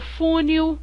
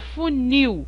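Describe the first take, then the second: First: The stress is on the first syllable. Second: The stress is on the last syllable. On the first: The speaker calls it wrong. "Eu não falo funil" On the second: The speaker calls it right. "eu falo funil"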